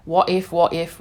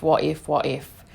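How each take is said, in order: First: Said in the usual way. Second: What if, what if dropped low and trailing off; lower, fading worried what if. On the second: Retold or imitated. Family fretting about solo travel, lower mock worry. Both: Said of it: "family were like".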